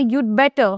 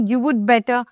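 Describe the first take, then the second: First: "you'd better" said short as one syllable you'd; contracted form. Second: "You would better" with would said in full; wrong form. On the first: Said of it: "উচ্চারণ করি সেটা হবে you'd". ("you'd better" সংক্ষেপে you'd) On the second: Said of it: "না, you'd better". ("You would better" পুরো would বলে) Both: Shown as a demonstration.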